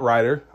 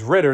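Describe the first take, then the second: First: The first vowel is long, as in 'ride'. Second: The first vowel is short, as in 'rid'. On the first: The speaker calls it wrong. "not Ryder. I said that wrong" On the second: The speaker calls it right. "The quarterback for Atlanta is Ridder"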